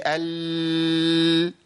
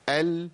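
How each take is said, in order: First: "ال" with the L dragged out far too long; over-prolonged lam. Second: "ال" with the L held only briefly; medium-length lam. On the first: Teacher showing students what to avoid, "ال" with an overlong L. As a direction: hold the L of "ال" on and on, letting the sound keep flowing. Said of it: "أنا عملت رخاوة". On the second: Teacher modelling correct lam for students, "ال" with a briefly held L. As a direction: let the L of "ال" run a short moment, then stop. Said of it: "بيمشي الصوت فترة زمنية بسيطة". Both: Shown as a demonstration.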